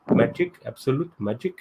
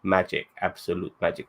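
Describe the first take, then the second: First: Higher-pitched put-on Indian accent. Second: Said in the usual way. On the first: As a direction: act Kamala's dad with a lilting Indian accent. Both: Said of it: "That's a good Indian accent".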